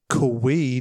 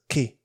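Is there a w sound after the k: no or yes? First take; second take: yes; no. First: It sounds like kwee, with a w sound. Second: It sounds like key, with no w sound. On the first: The speaker calls it wrong. "not Kui" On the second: The speaker calls it right. "you know that a Q-U-I is key"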